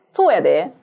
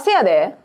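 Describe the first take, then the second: First: The phrase is said fully as sou-ya-de. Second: The phrase is shortened to se-ya-de.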